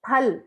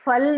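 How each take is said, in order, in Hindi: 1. शब्द की शुरुआत aspirated p ध्वनि से होती है। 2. शब्द की शुरुआत f ध्वनि से होती है। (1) "क्या बोलेंगे? फल।" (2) "फल नहीं बोलेंगे"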